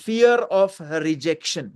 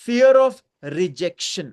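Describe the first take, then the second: First: Fear of rejection dragged very slowly, falling; slow repeated term. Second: Fear of rejection stretched slowly, louder, with a rise on fear; slow emphatic term. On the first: (Fear of rejection को बहुत धीरे दोहराना) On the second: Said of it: "तीसरा है". (fear of rejection को धीरे-धीरे खींचकर, fear पर ज़ोर) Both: Shown as a demonstration.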